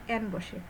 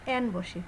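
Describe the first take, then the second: The two takes are said the same way.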